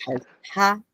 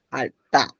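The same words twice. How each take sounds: First: Jalta with a breathy release on the T; contrasted aspirated T. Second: Jalta with a tight, unaspirated T; contrasted tense T. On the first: Teacher repeating the contrast for students, jalta with aspirated T. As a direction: puff air through the T of jalta. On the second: Teacher repeating the contrast for students, jalta with tense T. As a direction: stop firmly before a hard T in jalta. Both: Shown as a demonstration. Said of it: "Ven distinto".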